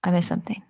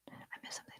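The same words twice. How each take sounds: First: Said in the usual way. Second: Barely audible unvoiced whisper; whisper to self. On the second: Real, not acted. Scanning the viewers' comments for a missed one, tiny whisper. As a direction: repeat it almost silently, just for yourself.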